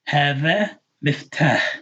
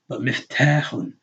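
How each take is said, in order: First: The word ends without a final 'un' sound. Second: The word ends with an added 'un' sound.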